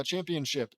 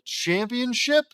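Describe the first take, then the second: First: Said in the usual way. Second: High, drawn-out questioning CHAMPIONSHIP; incredulous query. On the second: Real, not acted. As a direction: question the word "Championship" with a rising, disbelieving tone. Reader questions the word just read.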